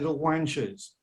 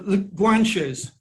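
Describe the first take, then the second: First: The word begins with a W sound. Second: The word begins with a hard G sound.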